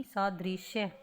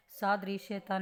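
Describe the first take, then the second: First: सादृश्य ending in "-shya"; correct form. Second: सादृश्यता with an added "-ta"; extra final syllable on सादृश्यता; wrong form. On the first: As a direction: say सादृश्य with no final "-ta". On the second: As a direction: say सादृश्यता ending in -shya-ta. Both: Shown as a demonstration. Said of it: "सादृश्यता नहीं".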